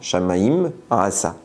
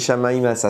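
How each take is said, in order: First: A short pause separates the two words. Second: The two words run together as one word. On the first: The speaker calls it right. "on marque un petit espace entre les deux" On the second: The speaker calls it wrong. "c'est un seul mot"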